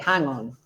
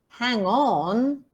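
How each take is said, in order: First: The main stress falls on the first word. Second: The main stress falls on the second word. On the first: It would be a noun. The speaker calls it wrong. "you don't say hang on" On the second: It works as a phrasal verb. The speaker calls it right. "the nucleus on on"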